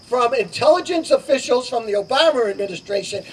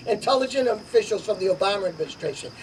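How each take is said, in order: First: Said in the usual way. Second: Quick, softer sarcastic repeat, barely keeping a straight face. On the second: Real, not acted. Candidate mocks Obama officials to the crowd, softer quick sarcastic aside. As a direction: toss it off with mock disbelief. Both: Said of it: "hard to say it with a straight face".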